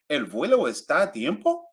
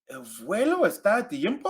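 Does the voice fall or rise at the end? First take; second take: rise; fall. First: The voice rises at the end. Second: The voice falls at the end. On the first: It asks a question. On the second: It states a fact.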